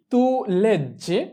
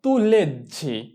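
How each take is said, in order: First: Tu leggi said very slowly, word by word; slow repeat. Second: Said in the usual way. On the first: Shown as a demonstration. Teacher repeating tu leggi for students, very slow. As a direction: stretch tu leggi out for learners. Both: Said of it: "তুমি পড়ছো বা তুমি পড়ো".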